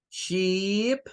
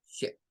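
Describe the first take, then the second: First: "Sheep" with a long, stretched ee. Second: "ship" with a short, clipped i. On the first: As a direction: hold the vowel of "Sheep" long and tense. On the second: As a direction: cut the vowel of "ship" short. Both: Shown as a demonstration. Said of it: "estas dos podrían parecerse mucho".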